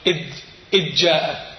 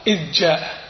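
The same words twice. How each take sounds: First: إذ جاء with the ذ sounded clearly before جاء; clear dhal in idh. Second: إذ جاء run together, the ذ merged into the ج; dhal assimilated. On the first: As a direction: keep the ذ of إذ distinct, no merging. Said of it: "تقول". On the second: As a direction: swallow the ذ into جاء as a mistake. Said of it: "يعني يدغم الذال بالجيم". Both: Shown as a demonstration.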